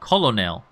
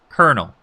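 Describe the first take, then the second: First: It is said as spelled, with an L sound. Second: It is said like 'kernel', with an R sound. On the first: The speaker calls it wrong. "if I were trying to sight read it, it would be colonel" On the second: The speaker calls it right. "But here it's colonel"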